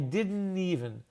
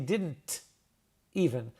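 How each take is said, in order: First: The T in didn't is not pronounced. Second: The T in didn't is clearly pronounced. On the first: "We call that the ghost T" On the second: "I didn't say didn't even"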